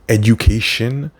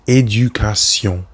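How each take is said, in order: First: The ending is pronounced like English 'shun'. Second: The ending is pronounced like French 'sion'. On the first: The speaker calls it wrong. "Don't say shun like you would in English" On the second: The speaker calls it right. "En français, c'est éducation"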